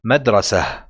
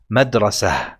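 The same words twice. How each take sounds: First: The word ends with an audible h sound. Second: The same.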